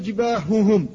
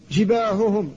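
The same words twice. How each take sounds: First: جباههم with the ه sounds voiced and pushed; faulty جباههم, ه over-voiced; voiced ha error. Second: جباههم with both ه kept breathy and voiceless; clean, whispered ه in جباههم. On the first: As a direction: show the wrong جباههم with voiced ه. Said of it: "لا تقل". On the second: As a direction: correct model of جباههم, ه not voiced. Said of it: "فلذلك تقول". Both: Shown as a demonstration.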